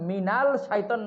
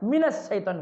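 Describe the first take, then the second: First: The article is pronounced with a clear l sound. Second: The article merges into a doubled s sound. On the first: The speaker calls it wrong. "মিনাল শাইতান না হইয়া" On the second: The speaker calls it right. "মিনাস শাইতান হয়ে গেছে"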